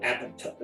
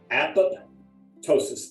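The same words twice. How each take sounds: First: The word is said as one unbroken word. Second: The word is said as two separate parts. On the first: The speaker calls it wrong. "they mess it up all the time" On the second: The speaker calls it right. "think of it as two words"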